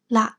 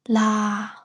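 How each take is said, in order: First: The tone is short and creaky. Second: The tone is long and falls from high. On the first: It means the moon. "short creaky tone" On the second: It is a yes-or-no question particle. "long or high falling tone"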